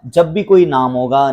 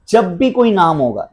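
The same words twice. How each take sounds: First: "कोई" stressed, said slowly; slow it down and lean on "कोई"; slow emphatic repeat. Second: Said in the usual way. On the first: Shown as a demonstration.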